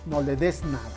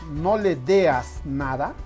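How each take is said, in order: First: The third word has a single e vowel. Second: The third word has an extra a sound inside. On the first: The speaker calls it right. "en lugar de no le des nada" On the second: The speaker calls it wrong. "si decimos no le deas nada"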